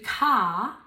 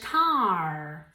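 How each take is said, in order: First: Said in a British accent without an R. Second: Said in an American accent with a strong R. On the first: "In British English, it would be car" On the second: "in American English, car. Ahí sí que pronuncian más la R"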